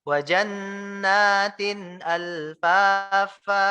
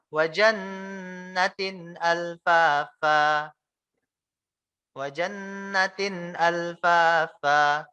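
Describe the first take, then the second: First: "jannatin" with the nun held long, slow recitation. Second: "jannatin" with the nun clipped short, wrong. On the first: (nun pada "jannatin" dibaca panjang) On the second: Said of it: "Jadi nunnya nggak panjang". (nun pada "jannatin" dibaca pendek, salah) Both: Shown as a demonstration.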